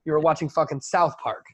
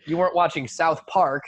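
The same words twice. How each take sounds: First: "South Park" with the weight on South; corrected stress. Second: "South Park" with the weight on Park; misplaced stress. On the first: Shown as a demonstration. Annoyed at how people name it, stress on South. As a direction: punch "South", let "Park" fall after it. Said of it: "this shit just bothers me". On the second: Retold or imitated. Quoting the annoying way to name it, stress on Park. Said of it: "emphasis on the wrong side".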